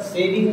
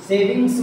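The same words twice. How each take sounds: First: सेविंग ending on ng, no s; singular सेविंग. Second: सेविंग्स pitched up, final s sounded; plural सेविंग्स. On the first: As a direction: say सेविंग without the final s. (सेविंग, आख़िर में स के बिना) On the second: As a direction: say सेविंग्स with a clear end s. (सेविंग्स, आख़िर में स के साथ) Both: Shown as a demonstration. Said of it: "सेविंग नहीं".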